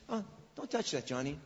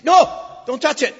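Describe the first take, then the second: First: Soft, half-hearted warning; limp, mild warning. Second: A sudden loud, high warning shout; sharp shout. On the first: Parent mildly warning Johnny away from the stove, soft and limp. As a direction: say it softly, like it barely matters. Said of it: "Why don't you say". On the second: Parent shouting at a child reaching for the stove, loud and sharp. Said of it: "so you do this with emphasis". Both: Shown as a demonstration.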